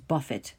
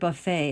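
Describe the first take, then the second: First: It is said with the verb's pronunciation. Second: It is said with the noun's pronunciation. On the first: To punch or to hit. "but this pronunciation is buffet" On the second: A spread of food. "we know the word buffet as a noun"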